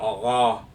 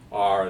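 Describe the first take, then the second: First: The R sound is dropped, leaving an open vowel. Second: The R sound is fully pronounced after the vowel. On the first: "these people do have Boston accents, so the R comes out kind of ah" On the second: "like other people might say R"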